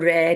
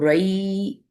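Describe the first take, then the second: First: The vowel is a flat single 'ai'. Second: The vowel is a soft gliding diphthong. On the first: The speaker calls it wrong. "इसको रै नहीं पढ़ना" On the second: The speaker calls it right. "इसको रई"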